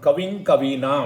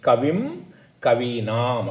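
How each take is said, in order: First: The words run together with an 'ng' nasal. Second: The words are separate, ending in a lip 'm'. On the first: "சேர்ந்து சொல்லணும்" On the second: "தனித்தனியா சொன்னா"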